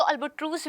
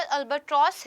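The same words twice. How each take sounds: First: "अल्बाट्रूस" said as al-ba-troos, long "oo" vowel; albatross with "oo". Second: "अल्बाट्रॉस" said as al-ba-tross, open "aw" vowel; albatross with "aw". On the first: Teacher noting the other way some people say it, long "oo". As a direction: say "अल्बाट्रूस" with a long "oo" in the last syllable. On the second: Teacher giving the bird's usual name in class, open "aw". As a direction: say "अल्बाट्रॉस" with a rounded "aw" in the last syllable. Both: Shown as a demonstration. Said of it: "कुछ लोग इसको अल्बाट्रूस भी बोलते हैं".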